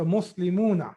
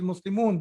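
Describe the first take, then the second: First: The word ends on a final vowel. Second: The word ends on the n sound. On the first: "I'm pronouncing the last harkat also" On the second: "it is Muslimun because you are stopping there"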